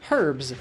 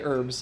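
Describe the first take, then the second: First: The word begins with a clear h sound. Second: The word begins with a vowel sound, no h. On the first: "I don't say, like, herbs. ... That's like somebody's name" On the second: "I definitely say herbs"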